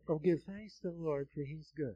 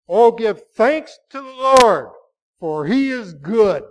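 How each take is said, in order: First: It is said flatly, without any feeling. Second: It is said with strong feeling, exclaimed.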